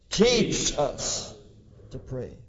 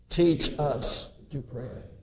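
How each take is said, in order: First: The word teach gets strong emphasis. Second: No word gets special emphasis.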